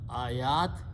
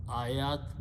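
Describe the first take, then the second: First: The second vowel is stretched long. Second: The second vowel is stretched long.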